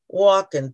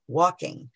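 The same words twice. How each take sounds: First: The ending is cut to a short 'in'. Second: The ending is a full '-ing' sound. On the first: The speaker calls it wrong. "dropping my ings" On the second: The speaker calls it right. "putting my ings on verbs"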